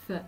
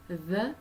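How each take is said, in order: First: "th" as a voiceless breath between the teeth; "th" with no buzz in the throat; unvoiced th. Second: "the" as a buzzed th sound with a short vowel; voiced th in "the", tongue tip out. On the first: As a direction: blow air over the tongue tip for "th". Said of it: "th is unvoiced". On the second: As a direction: let the throat vibrate on the th of "the". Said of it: "the is voiced". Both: Shown as a demonstration.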